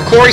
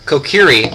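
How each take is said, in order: First: The middle syllable has an 'oh' vowel. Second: The middle syllable has an 'ee' vowel. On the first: The speaker calls it wrong. "I always said Kokori. And so I'm going to end up saying it wrong" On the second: The speaker calls it right. "Or Kokiri"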